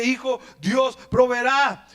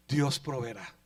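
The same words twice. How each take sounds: First: Slow, fuller Dios proveerá; slow grateful declaration; relieved tender father. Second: Dios proveerá murmured low and soft; quiet tense father; hushed, tense reassurance. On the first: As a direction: let the relief pour out slowly. Father embraces son after rescue. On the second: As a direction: hold back the fear, barely voiced. Father calms bound son. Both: Acted.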